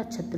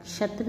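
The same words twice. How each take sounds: First: Said in the usual way. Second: क्षत्र with sh sound for chh; mispronounced. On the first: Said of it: "होता है". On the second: Shown as a demonstration. Teacher showing students an error, क्षत्र with wrong ksh. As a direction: say क्षत्र as "kshatra". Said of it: "नहीं होता".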